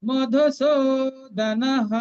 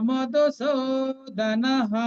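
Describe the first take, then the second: The two takes are said the same way.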